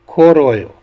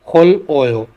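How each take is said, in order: First: The final consonant is linked onto the vowel. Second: The final consonant is kept separate from the vowel. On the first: "carry over rule के हिसाब से" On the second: "अगला लफ्ज़ है"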